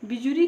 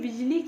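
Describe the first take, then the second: First: An extra u vowel is said after j. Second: No vowel is said between j and l. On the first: The speaker calls it wrong. "तो ये अशुद्ध है" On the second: The speaker calls it right. "शुद्ध शब्द ये होगा"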